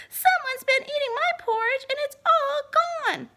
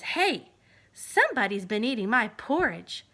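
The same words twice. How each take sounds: First: Put-on much higher, louder baby voice; Baby Bear. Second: Louder, a touch lower bear voice; gruff indignant papa. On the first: Baby Bear finding his porridge all gone, high and loud. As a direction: wail it like an upset little cub. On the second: Acted. Papa Bear finding his porridge eaten, loud and low.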